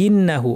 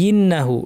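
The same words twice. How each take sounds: Both takes have the same delivery.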